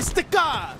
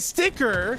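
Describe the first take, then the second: First: The word ends with a British-style 'ah' sound. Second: The word ends without a British-style vowel. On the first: This is the way the quoted person actually says it. The speaker calls it right. "I say sticker, bro" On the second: This is the way the quoted person rejects. The speaker calls it wrong. "I don't say sticker"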